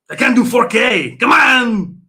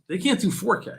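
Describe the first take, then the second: First: Much higher, much louder yell of "They can't do four K"; real exasperated shout. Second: Said in the usual way. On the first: Real, not acted. Ranting at chat about new consoles, real frustrated shout. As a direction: bellow it at the chat, fed up.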